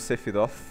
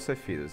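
First: It ends with a tongue-between-teeth 'th' sound. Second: It ends with an 's' sound, final vowel dropped. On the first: "o TH, esse som de língua entre os dentes" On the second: "Só que o E cortado fica só Sephirosu"

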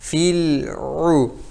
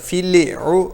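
First: The l is released slowly and smoothly. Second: The l is bounced with an echoing release. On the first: The speaker calls it right. "dilimizi çok yavaşça çekeceğiz" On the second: The speaker calls it wrong. "Yani lamı kalkaleli bir şekilde yapmayalım"

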